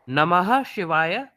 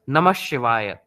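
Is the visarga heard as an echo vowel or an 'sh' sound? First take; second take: echo vowel; sh sound. First: The visarga is sounded with an echo vowel. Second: The visarga merges into the following 'sh' sound.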